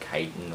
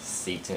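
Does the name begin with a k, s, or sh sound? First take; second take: k; s. First: The name begins with a k sound. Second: The name begins with an s sound. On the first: "or Kiten" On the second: "A lot of people pronounce it as Seton"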